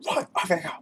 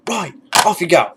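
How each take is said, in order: First: Higher but softer, half-hearted "Right, off you go"; softer sergeant quote. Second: Louder, higher barked dismissal with "off" punched; mock sergeant barking "Right, off you go"; sergeant major dismissal. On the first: Retold or imitated. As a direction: toss off the sergeant line quietly to yourself. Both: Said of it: "quoting some of those, those movies".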